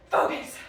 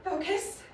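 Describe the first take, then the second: First: "Focus." said louder and sharper; a stern order to oneself; firmer self-command. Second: Said in the usual way. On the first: Acted. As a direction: snap yourself out of it.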